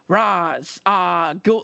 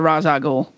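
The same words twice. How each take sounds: First: The name is broken into separate words. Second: The name is said smoothly as one unit. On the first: The speaker calls it wrong. "You can't be like, Ra's al Ghul. Like, if you don't say it all together, it sounds weird" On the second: The speaker calls it right. "you got to say it fluently all together"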